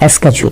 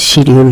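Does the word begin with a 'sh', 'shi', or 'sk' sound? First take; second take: sk; shi. First: The word begins with an 'sk' sound. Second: The word begins with a 'shi' sound. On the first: The speaker calls it right. "আর একটা হচ্ছে স্কেজুল" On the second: The speaker calls it wrong. "উচ্চারণটা শিডিউল নয়"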